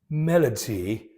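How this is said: It is said in a British accent. "I will read it in the British manner"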